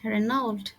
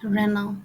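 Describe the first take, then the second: First: The word ends with an 'ld' sound. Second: The word ends without any d sound. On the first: The speaker calls it wrong. "রেনল্ড না" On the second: The speaker calls it right. "এটার প্রনাউন্সিয়েশন হবে রেনাল"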